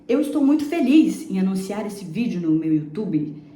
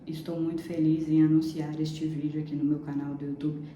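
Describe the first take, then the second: First: It is said with happy excitement. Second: It is said flatly, without emotion.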